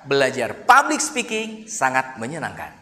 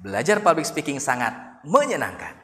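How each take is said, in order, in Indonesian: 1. Tekanan jatuh pada public speaking. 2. Tekanan jatuh pada kata menyenangkan. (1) "belajar public speakingnya yang kita tekan" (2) "dikata ujungnya, menyenangkan"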